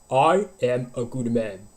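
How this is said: The voice is firm, produced from the throat. "English vocal positions"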